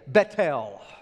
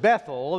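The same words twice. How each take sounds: First: The first syllable ends with a 't' sound. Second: The first syllable ends with a 'th' sound. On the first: This is the original Hebrew way of saying it. "The Israelites, they still pronounce it to this day, Bethel" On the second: This is the local Texan way of saying it. "in Texas, we pronounce it Bethel"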